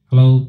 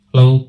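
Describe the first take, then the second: First: The voice has boosted low bass frequencies. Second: The voice has boosted middle frequencies. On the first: "আমি দেখুন বেসকে boost করছি" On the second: "মিডকে আমি বাড়াচ্ছি"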